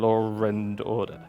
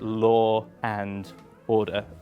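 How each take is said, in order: First: An R sound links 'law' and 'and'. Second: No R sound links 'law' and 'and'.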